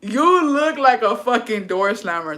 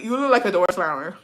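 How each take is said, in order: First: Slow, drawn-out "You look like", leaning on "You"; emphatic repeat. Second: Said in the usual way. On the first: Real, not acted. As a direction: stretch the words out, stressing "You" and "fucking". Emphatic repeat, teasing a viewer.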